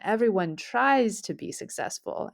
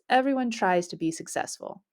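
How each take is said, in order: First: The word 'tries' is strongly stressed. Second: The word 'tries' gets no special stress.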